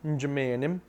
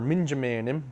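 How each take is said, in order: First: The first syllable is dropped to a faint m. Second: The first syllable is fully pronounced. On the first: This is how people in Wisconsin say it. "we kind of drop that uh, first syllable. We kind of just have a subtle M sound" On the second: This is how people elsewhere say it. "depending on where you're from"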